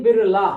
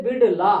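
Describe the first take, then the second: First: बिरला said with a plain flapped r, the English way; बिरला with an English r sound; English-style pronunciation. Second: बिड़ला said with the retroflex flap ड़; बिड़ला the proper Hindi way; Hindi pronunciation. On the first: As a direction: say बिरला with r, not the retroflex ड़. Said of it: "अंग्रेजी वाला शब्द ज्यादा बोलते हैं". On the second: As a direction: say बिड़ला with the Hindi tongue-curled ड़. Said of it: "Hindi का शब्द है बिड़ला". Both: Shown as a demonstration.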